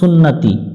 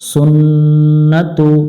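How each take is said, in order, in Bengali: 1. শব্দটি 'i' স্বরধ্বনি দিয়ে শেষ হয়। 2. শব্দটি 'u' স্বরধ্বনি দিয়ে শেষ হয়।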